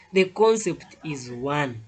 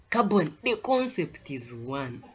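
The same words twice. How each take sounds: First: "The concept is one" said slowly, each word weighted, falling at the end; slow emphatic stress. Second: Said in the usual way. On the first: Shown as a demonstration. Teacher drilling the key rule into students, slow and emphatic. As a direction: lean on "The concept is one" slow and deliberate, dropping on "one". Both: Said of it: "I will always emphasize this".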